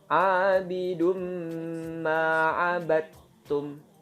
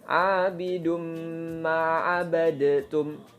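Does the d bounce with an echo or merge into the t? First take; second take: merge; bounce. First: The d merges smoothly into the t. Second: The d bounces with a short echo vowel. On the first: The speaker calls it right. "Seperti itu cara membacanya" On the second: The speaker calls it wrong. "itu salah"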